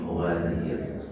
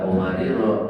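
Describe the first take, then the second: First: The word ends with the consonant r. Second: The word ends with a long final vowel. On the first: The speaker calls it right. "tapi qawarir" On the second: The speaker calls it wrong. "nggak qawariro"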